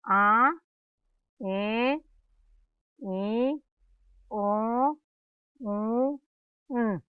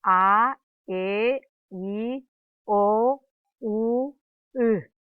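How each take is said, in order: First: A E I O U all pushed through the nose, nasalised; Guaraní nasal vowels. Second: A E I O U said clean and open, air through the mouth only; crisp oral vowels, no nasal colour; plain oral Guaraní vowels. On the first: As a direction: hum each vowel into the nose. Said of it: "Vocales nasales". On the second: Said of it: "Vocales orales". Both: Shown as a demonstration.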